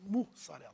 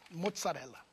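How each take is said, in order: First: It has a Portuguese u and s sound. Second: It has an Italian o and double z sound. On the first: This is how Brazilians actually say it. "Nós falamos mussarela" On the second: This is the original Italian word. "Italiano era mozzarella"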